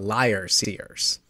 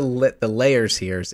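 First: The first word sounds like 'liar'. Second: The first word sounds like 'layer'. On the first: The speaker calls it right. "it's the liar seers" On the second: The speaker calls it wrong. "it's not the layer seers"

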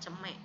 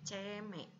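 First: The first vowel is not a clear é sound. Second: The first vowel is a clear é sound. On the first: The speaker calls it wrong. "bukan ceme" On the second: The speaker calls it right. "tapi ceme, e-nya dicurek ya"

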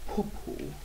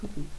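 First: It is said in a grand, lofty voice. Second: It is said in an ordinary, plain voice. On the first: "I said poo-poo in a grand voice" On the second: "I didn't say poo-poo"

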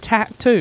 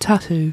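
First: Both T sounds are clearly pronounced. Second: One T sound is dropped or softened. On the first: The speaker calls it right. "there's two T's. It's a tattoo" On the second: The speaker calls it wrong. "Because you just drop one of the T's"

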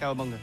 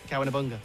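First: The phrase is said very quickly and run together. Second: The phrase is said fairly quickly. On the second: "Say it quickly"

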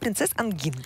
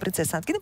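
First: The second word ends with a consonant sound. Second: The second word ends with a vowel sound. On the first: The speaker calls it right. "Вот так надо" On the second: The speaker calls it wrong. "русского вот этого произношения"

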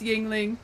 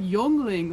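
First: The first syllable has an 'i' vowel, ying. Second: The first syllable has an 'o' vowel, yong. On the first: This is how the locals say the name. "no, it's Yingling. We don't know how to pronounce it" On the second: This is how the visitors from Germany say the name. "that's like Yongling. Like they were pronounced it for him"

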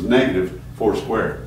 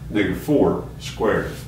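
First: A break follows 'negative', grouping 'four squared' together. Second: A break follows 'four', grouping 'negative four' together. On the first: Only the four is squared, then made negative. "Hear the difference in the way I'm saying it?" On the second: The whole negative four is squared. "And this is what we want"

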